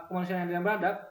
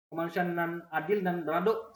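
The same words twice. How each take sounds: First: Said in the usual way. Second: Minang accent, ending on a rounded "-dok"; Minang dialect. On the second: Shown as a demonstration. Teacher showing that only the dialect differs, Minang dialect. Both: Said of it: "Cuman logatnya beda".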